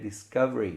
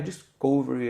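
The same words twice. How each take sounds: First: The vowel in 'cov' sounds like 'a'. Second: The vowel in 'cov' sounds like 'o'. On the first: The speaker calls it right. "O som é a" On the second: The speaker calls it wrong. "Não é discovery"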